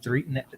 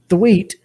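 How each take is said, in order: First: The name is said with an R sound. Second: The name is said with a W sound. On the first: The speaker calls it wrong. "I almost said Threet, ... no, that's not right" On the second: The speaker calls it right. "it's not an R. It's a W"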